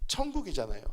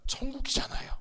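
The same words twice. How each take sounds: First: Said in the usual way. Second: Breathy hushed whisper of the word; soft whispered aside to the congregation. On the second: Acted. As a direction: lean in and whisper it like a secret. Preacher whispers heaven for effect.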